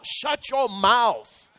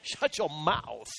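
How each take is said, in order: First: Slow, each word pressed; firm command. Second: Softer and lower, slow; hushed repeat. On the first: Preacher commanding the congregation, firm and slow. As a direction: shut your mouth, said firmly and slowly. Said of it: "put a hand over your mouth". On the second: Preacher repeating the command softly to the congregation. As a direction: shut your mouth, dropped to a hush. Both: Shown as a demonstration.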